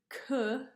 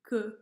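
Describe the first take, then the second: First: The k is released with a puff of air. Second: The k is released without a puff of air. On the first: The speaker calls it wrong. "instead of" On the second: The speaker calls it right.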